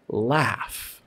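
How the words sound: The vowel is a flat, wide 'cat' sound. "where you're really opening your mouth wide"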